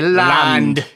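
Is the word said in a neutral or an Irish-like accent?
Irish-like. It is said with an Irish brogue.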